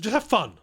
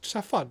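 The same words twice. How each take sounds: First: It is said in an aggressive, forceful tone. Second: It is said in a cautious, pleading tone. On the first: "In an aggressive way" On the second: "And a cautious way"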